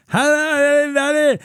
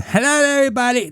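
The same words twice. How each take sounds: First: High, loud mocking imitation of a deaf coworker's speech; deaf accent. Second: High, fast mock deaf-accent voice. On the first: Comedian mocking the head cashier's overhead page, high and loud. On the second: Retelling the cashier's nightly page, high mock voice. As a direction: rattle it off high like her overhead page. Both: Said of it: "she had deaf accent".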